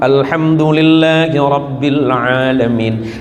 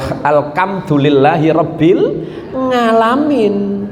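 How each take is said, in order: First: The last word begins with a plain vowel. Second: The last word begins with an ng sound. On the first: "Ejaannya ain" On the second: "Tapi pas dibaca ngain"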